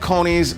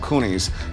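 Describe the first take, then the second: First: The first vowel is an 'oh' sound. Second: The first vowel is an 'oo' sound. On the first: The speaker calls it right. "They're called conies" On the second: The speaker calls it wrong. "if you want to mispronounce them"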